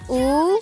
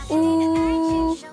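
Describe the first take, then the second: First: It is said with the second tone. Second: It is said with the first tone. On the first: "Bentuk kedua" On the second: "bentuk pertama"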